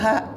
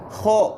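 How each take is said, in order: First: The letter sounds thin, with the tongue root flat. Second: The letter sounds thick, with the tongue root raised. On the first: The speaker calls it wrong. "jangan ha" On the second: The speaker calls it right. "harus ho bukan ha"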